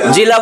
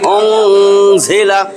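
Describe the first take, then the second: First: It starts with a plain j sound. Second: It starts with a heavy z sound. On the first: The speaker calls it wrong. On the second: The speaker calls it right.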